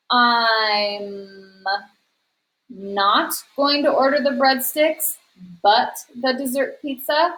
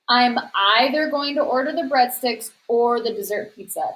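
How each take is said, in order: First: Questioning tryout. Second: "either ... or" said with a falling, final tune; settled, confident read. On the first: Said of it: "That's not a complete sentence". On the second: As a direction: sound sure it fits. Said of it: "That sounds the best". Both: Shown as a demonstration.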